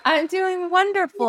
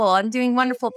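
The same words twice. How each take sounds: First: Sing-song delight. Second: Said in the usual way. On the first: Real, not acted. Host answers with laugh, sing-song.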